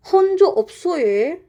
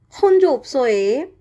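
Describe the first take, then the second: First: High, fast Jeju greeting; "혼조 없어요" said quickly and high in Jeju dialect. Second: Jeju dialect. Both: Shown as a demonstration. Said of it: "first example is like".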